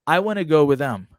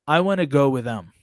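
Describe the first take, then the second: No difference in how they are said.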